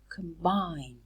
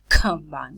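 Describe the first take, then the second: First: The first k sound has no puff of air. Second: The first k sound has a puff of air. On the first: The speaker calls it right. "We say con combine" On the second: The speaker calls it wrong. "We don't say combine"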